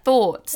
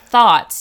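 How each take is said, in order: First: Thoughts with a rounded "aw", like "thawts"; friend's way of thoughts. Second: Thoughts with an open, unrounded "ah", like "thahts"; own way of thoughts. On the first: Retold or imitated. Telling friend how she says it, thoughts with rounded vowel. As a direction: round the lips on thoughts, Australian style. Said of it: "You say it like thoughts". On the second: Shown as a demonstration. Comparing herself with her friend, thoughts with open vowel. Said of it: "I say it like thoughts".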